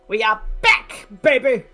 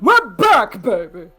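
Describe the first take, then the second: First: It is said in an ordinary natural voice. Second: It is said in a put-on impression voice. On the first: The speaker calls it wrong. "didn't say that right" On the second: The speaker calls it right. "I gotta say that like Tim Curry"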